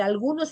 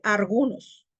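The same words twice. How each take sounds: First: Said in the usual way. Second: "algunos" said as "argunos". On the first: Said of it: "en vez de decir algunos". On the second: Shown as a demonstration. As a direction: swap l for r, "argunos". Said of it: "se dice argunos".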